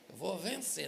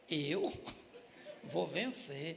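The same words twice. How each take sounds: First: It is said as a firm statement. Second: It is said as a question.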